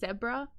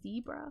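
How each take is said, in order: First: The word is said the Australian way. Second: The word is said a non-Australian way. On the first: "we even say zebra" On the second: "not zebra"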